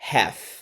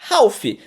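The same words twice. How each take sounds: First: It is said unlike its spelling, without an L. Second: It is said following its spelling, with an L. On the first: The speaker calls it right. "você vai pronunciar como half. Half" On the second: The speaker calls it wrong. "você vai pronunciar como half. Half, porque é o que você tá vendo ali"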